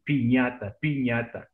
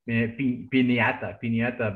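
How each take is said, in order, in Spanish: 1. La consonante del medio es un sonido ny. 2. La consonante del medio es una n simple. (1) "but pronunciation" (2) "some people say in English"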